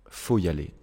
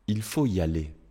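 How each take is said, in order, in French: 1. Le mot il est complètement supprimé. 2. Le mot il est prononcé au début.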